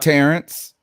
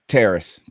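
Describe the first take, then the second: First: The name is said with an n before the s. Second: The name is said with no n before the s. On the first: The speaker calls it wrong. "I would have been saying that wrong forever" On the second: The speaker calls it right. "Terrace, Terrace. Thank you"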